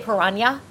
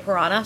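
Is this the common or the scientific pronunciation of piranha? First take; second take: scientific; common. First: The word is given the scientists' pronunciation. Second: The word is given the everyday, common pronunciation. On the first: This is the more learned way to say it. "as in the movie the scientists say Piranha" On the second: This is how most people say it. "all the other people say Piranha"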